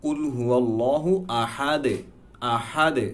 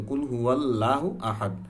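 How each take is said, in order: First: আহাদ closed with a bouncing "de" echo; recite, releasing the final দ of আহাদ as a light "de"; correct qalqalah. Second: Said in the usual way. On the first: Shown as a demonstration. Teacher showing the correct reading, qalqalah on আহাদ. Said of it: "সঠিক উচ্চারণ যখন আমি কলকলা সহ পড়ব". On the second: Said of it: "আমরা বলি কি".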